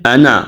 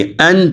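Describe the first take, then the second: First: انا with an open vowel after the n, 'a-na'; wrong open nun. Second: ان as one syllable ending firmly on n; correct closed nun. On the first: Teacher warns students with the wrong form, open انا. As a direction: release the n of انا into 'naa'. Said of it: "انا نہیں پڑھیں گے". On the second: Teacher gives students the right form, closed ان. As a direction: close ان on the n, no vowel after. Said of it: "ان پڑھیں گے". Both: Shown as a demonstration.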